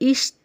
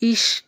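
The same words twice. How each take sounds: First: The sh sound before the t is blurred. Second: The sh sound before the t is clear. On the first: The speaker calls it wrong. "ಆದರೆ ತುಂಬ ಜನ ಹೇಗೆ ಹೇಳ್ತಾರೆ" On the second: The speaker calls it right. "ಏನು ಹೇಳಬೇಕು ನೀವು?"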